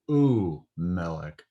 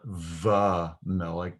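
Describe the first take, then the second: First: The first syllable is a plain oo sound. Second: The first syllable begins with a v sound. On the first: The speaker calls it right. "but u melech" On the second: The speaker calls it wrong. "not va melech"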